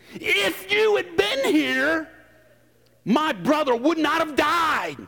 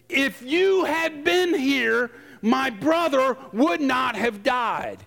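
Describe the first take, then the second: First: It is said with sass and accusation. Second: It is read in a plain, neutral tone.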